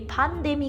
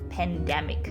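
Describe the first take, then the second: First: It is said with a Japanese accent. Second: It is said with a plain English accent.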